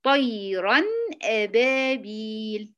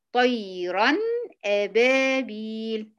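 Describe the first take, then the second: First: طيرًا أبابيل recited slowly with أبابيل drawn out; tajweed-style recitation; Quranic recitation demo. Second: طيرًا أبابيل recited again, أبابيل long and slow; tajweed-style recitation again; repeated recitation. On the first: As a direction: chant أبابيل slowly, elongated. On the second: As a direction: recite it once more, stretching أبابيل. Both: Shown as a demonstration. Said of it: "زي مثلًا كلمة".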